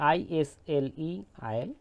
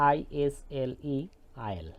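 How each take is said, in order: No difference in how they are said.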